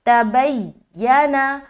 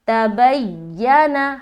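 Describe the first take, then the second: First: The y sound is doubled and held with tension. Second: The same.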